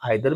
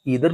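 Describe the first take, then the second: First: The first vowel sounds like 'eye'. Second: The first vowel sounds like 'ee'. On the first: "आइदर भी पढ़ते हैं" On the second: "ईदर भी पढ़ते हैं"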